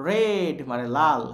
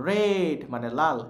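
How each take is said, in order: Both takes have the same delivery.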